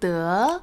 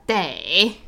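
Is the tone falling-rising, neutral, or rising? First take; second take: rising; falling-rising. First: The syllable is said with a rising tone. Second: The syllable is said with a falling-rising tone. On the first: "Rising tone" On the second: "Falling rising tone"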